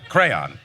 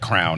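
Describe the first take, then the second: First: The word is said in two syllables, 'cray-on'. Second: The word is squeezed into one syllable like 'crown'. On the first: The speaker calls it right. "the right way to say words" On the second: The speaker calls it wrong. "She says like crown"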